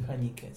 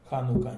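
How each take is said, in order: First: The middle syllable has an i vowel. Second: The middle syllable has an u vowel. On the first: The speaker calls it wrong. "не ханика" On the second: The speaker calls it right. "Ханука, не ханика"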